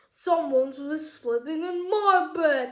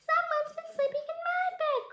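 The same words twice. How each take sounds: First: It is said in a big booming voice. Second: It is said in a squeaky little voice.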